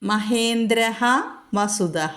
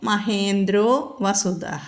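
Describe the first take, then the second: First: The first word ends in a breathy h. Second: The first word ends in an o vowel. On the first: The words are kept separate. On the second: The words are joined together. "അപ്പോൾ മഹേന്ദ്രോ വസുദഃ"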